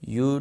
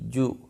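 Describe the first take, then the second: First: The word begins with a 'y' sound. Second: The word begins with a 'j' sound. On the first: The speaker calls it wrong. "यू नहीं" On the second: The speaker calls it right. "नहीं जू"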